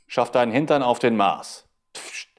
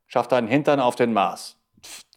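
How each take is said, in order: No difference in how they are said.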